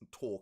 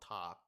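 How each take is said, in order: First: The word is said with a British vowel. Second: The word is said with an American vowel. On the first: "because I'm the U K, talk is talk" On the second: "and not talk, however you Americans say it"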